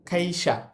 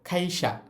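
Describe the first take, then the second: Both takes have the same delivery.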